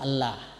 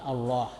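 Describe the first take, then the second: First: The L sound is thin and light. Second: The L sound is thick and heavy. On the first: The speaker calls it wrong. "Allah tidak boleh dibaca Allah" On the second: The speaker calls it right. "tapi Allah. Jadi Allah itu tebal"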